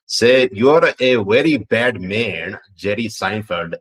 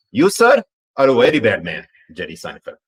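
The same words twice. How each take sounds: First: Light Pakistani accent, slow and lilting; a playful stab at a Pakistani accent on request. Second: Hammed-up Pakistani accent, "sir" jumping high and loud. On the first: Reading a viewer's request in a light Pakistani accent. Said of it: "in the Pakistani accent". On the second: Asked by chat, redoing the line in a fuller Pakistani accent. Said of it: "Let me say it one more time". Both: Shown as a demonstration.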